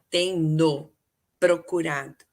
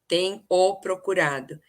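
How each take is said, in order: First: An n sound links tem to the pronoun. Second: No n sound links tem to the pronoun. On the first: The speaker calls it right. "teria que acrescentar o N" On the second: The speaker calls it wrong. "senão fica tem o"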